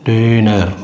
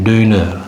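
Both takes have the same delivery.

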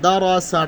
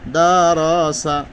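First: The vowels are short and quick, not drawn out. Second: The vowels are drawn out and lengthened. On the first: The speaker calls it right. "টান হবে না।" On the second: The speaker calls it wrong. "তাহলে অশুদ্ধ হবে"

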